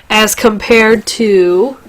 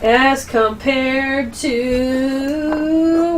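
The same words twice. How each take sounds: First: Said in the usual way. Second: Very slow, stretched suspense; drawn out. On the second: Shown as a demonstration. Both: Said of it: "wait for it".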